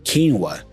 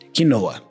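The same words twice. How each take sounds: First: It is pronounced the English way. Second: It is pronounced the Brazilian Portuguese way. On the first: "But in English, we go quinoa" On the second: "In my native language, in Brazilian Portuguese, we call it quinoa"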